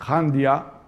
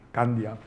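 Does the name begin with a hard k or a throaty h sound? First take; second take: throaty h; hard k. First: The name begins with a throaty h sound. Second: The name begins with a hard k sound. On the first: "yo creo que es más correcto decir Jandia" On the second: "en Candia también se puede pronunciar"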